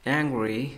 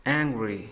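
Both takes have the same delivery.

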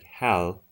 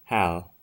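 First: The final consonant is a clear English L. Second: The final consonant is a clear English L.

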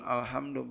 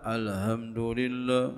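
First: The h is a harsh, throaty sound. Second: The h is a soft, breathy sound. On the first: The speaker calls it right. "bukan pakai hak" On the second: The speaker calls it wrong. "Bil ha'i, dengan hak"

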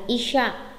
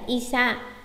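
First: The second syllable starts with an 'sh' sound. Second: The second syllable starts with a plain 's' sound. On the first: The speaker calls it right. "mà là isha" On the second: The speaker calls it wrong. "không phải isa"

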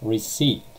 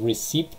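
First: No P sound is pronounced in the word. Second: A P sound is pronounced in the word. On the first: The speaker calls it right. "without P" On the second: The speaker calls it wrong. "It's not receipt"

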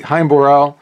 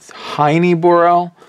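First: Heine is said as one syllable. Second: Heine is said as two syllables. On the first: This is the speaker's own usual pronunciation. "I say Hein-Borel" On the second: This is how others have been heard saying it. "I think I've heard it Heine-Borel"

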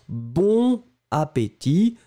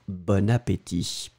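First: Bon and appétit are said without a link. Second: Bon is linked into appétit with an n sound.

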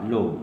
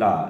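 First: The vowel is a rounded 'oh' sound. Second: The vowel is an open 'ah' sound. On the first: The speaker calls it right. "this should be low" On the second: The speaker calls it wrong. "Don't pronounce it la"

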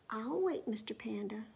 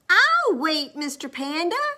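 First: It is said at a normal volume. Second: It is said loudly. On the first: The listener may not hear it. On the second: The speaker makes sure to be heard.

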